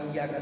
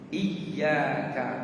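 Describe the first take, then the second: First: The y sound is short and unstressed. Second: The y sound is doubled and pressed hard. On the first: The speaker calls it wrong. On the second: The speaker calls it right. "Dia harus ditasydid, ditekan"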